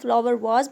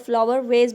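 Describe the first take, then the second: First: The vowel in vase sounds like ah. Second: The vowel in vase sounds like ay. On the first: "इसको हम flower वाज भी पढ़ सकते हैं" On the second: "flower वेज भी पढ़ सकते हैं"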